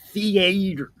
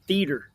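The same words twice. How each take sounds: First: The first vowel glides between two vowel sounds. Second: The first vowel is one steady vowel sound. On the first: "I'm saying theater, and that's a diphthong" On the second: "you're saying it like teeter or beater or meter... It's one vowel sound"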